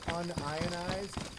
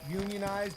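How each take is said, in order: First: It is split as un plus ionized. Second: It is split as union plus ized. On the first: Not split into ions. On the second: Belonging to a labor union.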